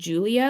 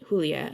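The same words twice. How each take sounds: First: The name is said with an English pronunciation. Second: The name is said with a Spanish pronunciation. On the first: "like the you know English pronunciation" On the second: "as in Spanish"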